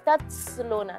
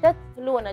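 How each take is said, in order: First: The t hisses into an s-like sound. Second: The t is crisp with only light breath. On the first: The speaker calls it wrong. "jangan tatsluna seperti itu" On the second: The speaker calls it right. "cukup udara yang keluar tatluna"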